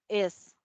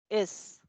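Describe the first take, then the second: Both takes have the same delivery.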